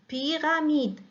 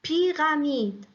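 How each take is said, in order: No difference in how they are said.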